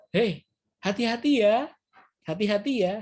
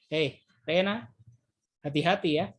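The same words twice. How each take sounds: First: Friendly warning lifted up high; high caring intonation. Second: Threatening intonation. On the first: Teacher demonstrating a friendly warning, raised pitch. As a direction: call out a kind hati-hati with a rising tune. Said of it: "Tapi intonasinya juga tinggi". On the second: Teacher demonstrating the same words as a mild threat. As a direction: drag out "Hei, Rena" and drop the pitch on hati-hati like a threat. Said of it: "tapi intonasi berbeda". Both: Shown as a demonstration.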